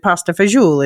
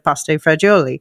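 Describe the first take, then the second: First: It is said in a Neapolitan-style pronunciation. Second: It is said in a standard, non-Neapolitan pronunciation. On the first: This is how the ex said it. "my ex used to pronounced it" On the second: This is the usual way of saying it. "instead of"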